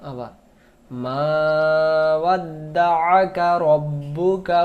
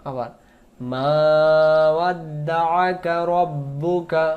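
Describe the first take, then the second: Both takes have the same delivery.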